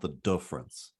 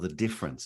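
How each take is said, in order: First: The i vowel is said the local Kiwi way. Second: The i vowel is said the standard English way. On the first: The speaker calls it wrong. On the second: The speaker calls it right. "I was instructed on how to say my I's"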